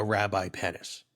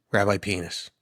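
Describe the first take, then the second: First: "Penis" in "Rabbi Penis" said PEN-iss; "Penis" rhyming with "tennis"; short-e pronunciation. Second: Said in the usual way. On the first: Shown as a demonstration. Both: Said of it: "but pronounced Penis".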